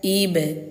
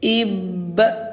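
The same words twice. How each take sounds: First: The b is released with a light, thin bounce. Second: The b is released with a heavy, strong bounce. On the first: The speaker calls it right. "Ringankan saja" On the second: The speaker calls it wrong. "Jangan ayah bunda baca kayak gini"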